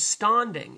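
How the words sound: The 'a' has a broad British sound. "He uses the English A"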